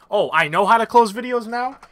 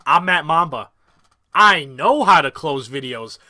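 First: Incredulous rising question; mock disbelief. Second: Slow, self-assured brag; smug boast. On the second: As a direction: lay it on, cocky and slow. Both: Shown as a demonstration.

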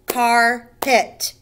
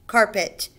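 First: "carpet" as car, pause, pet, louder; split into syllables. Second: Said in the usual way. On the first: Shown as a demonstration. Teacher counting syllables, "carpet" broken into car and pet. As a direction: punch out "carpet" in two separate beats. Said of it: "or two beats". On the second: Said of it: "Two syllables".

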